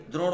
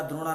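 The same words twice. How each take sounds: First: द्रोण ends clipped on ण, no vowel; correct form. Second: द्रोणा said with a long आ after ण; wrong form demo. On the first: Teacher giving students the right spelling, short ending. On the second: Teacher warning students off the mistake, added vowel. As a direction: stretch द्रोणा into a final long आ. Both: Shown as a demonstration. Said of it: "द्रोणा नहीं होता है".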